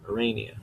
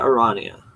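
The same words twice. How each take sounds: First: Arania as a-RAY-nia; ay pronunciation. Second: Arania as a-RAH-nia; ah pronunciation. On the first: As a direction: Arania with the vowel of "rain". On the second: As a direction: open "ah" in the middle of Arania. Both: Shown as a demonstration. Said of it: "which one I actually prefer".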